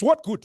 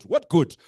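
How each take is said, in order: First: Sharp high cry of what good; rising challenge. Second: Said in the usual way. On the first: Acted. Speaker challenging the audience, high loud cry. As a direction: fling the question up at the crowd, loud.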